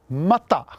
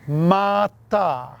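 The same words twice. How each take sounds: First: Both vowels are short. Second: Both vowels are long. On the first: It means raw. "Mata means raw" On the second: It means heap. "if you place a macron over both A's"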